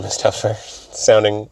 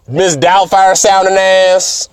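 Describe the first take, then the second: First: Said in the usual way. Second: Put-on a high, slow, louder Mrs Doubtfire old-lady voice. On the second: Shown as a demonstration. The speaker showing how Luna sounds, in a high, slow, louder Doubtfire voice. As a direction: put on a hammed-up Doubtfire nanny voice.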